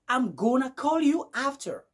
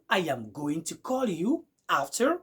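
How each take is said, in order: First: The words are contracted and run together. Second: Every word is pronounced fully and separately. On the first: "vous allez écouter du genre" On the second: "au lieu de dire"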